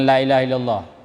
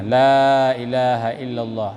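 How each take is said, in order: First: The vowel of 'la' is short, not lengthened. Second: The vowel of 'la' is held long. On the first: It wrongly affirms that a god exists. The speaker calls it wrong. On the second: It denies any god but Allah. The speaker calls it right. "ada mat"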